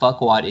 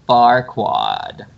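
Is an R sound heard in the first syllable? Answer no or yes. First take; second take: no; yes. First: The first syllable is said without an R sound. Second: The first syllable is said with an R sound. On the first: "It's not Farquaad" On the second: "Because they added an R"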